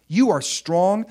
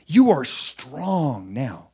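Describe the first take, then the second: First: Higher and louder repeat; rising affirmation; louder echo. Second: Slowed right down, each word weighted; drawn-out declaration; slow emphatic. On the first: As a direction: lift it up and proclaim it again. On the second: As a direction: lay it down slowly, word by word. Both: Shown as a demonstration.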